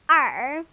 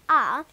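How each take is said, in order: First: The letter is said with an American r-sound. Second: The letter is said British-style, as open ah.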